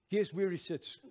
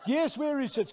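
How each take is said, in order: First: Said in the usual way. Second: Loud, high-pitched challenge to the crowd; urgent, punched-up question; insistent prodding. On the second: Real, not acted. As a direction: press the audience for an answer, raised voice. Asks again, prodding the audience.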